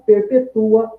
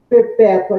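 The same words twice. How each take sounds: First: "perpetua" with the stress on TU, the "u" and "a" split. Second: "Perpétua" with the stress on PÉ and the "ua" as one glide. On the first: Teacher contrasting adjective and verb: "perpetua" stressed on TU. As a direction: verb reading of "perpetua", per-pe-TU-a. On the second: Teacher contrasting adjective and verb: "Perpétua" stressed on PÉ. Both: Shown as a demonstration.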